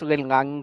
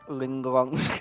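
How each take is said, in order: First: The second syllable has an open 'ah' vowel. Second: The second syllable has a rounded 'oh' vowel. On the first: The speaker calls it right. "it's Lin Lang" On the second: The speaker calls it wrong. "not Ling Long"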